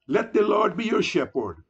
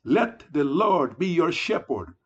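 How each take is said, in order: First: "the" in "let the Lord be your shepherd" leaned on, falling at the end; preacher's appeal with the weight on "the"; stress on the. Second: "let" hit first and firmest, then a long fall through "your shepherd"; repeated appeal opening hard on "let"; stress on let. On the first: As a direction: lean on "the" before "Lord", then let the line fall. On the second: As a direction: punch "let" as a plea, then settle downward. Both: Real, not acted. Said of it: "Yes, my friends".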